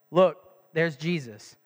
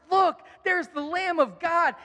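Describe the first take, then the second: First: Low, slow and deadpan; bored monotone announcement; flat, unexcited. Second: High, slow, eager announcement; thrilled to point the way; joyful proclamation; excited. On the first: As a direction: read it like it's no big deal. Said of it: "you kinda think that he reads it like". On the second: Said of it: "he is excited". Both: Shown as a demonstration.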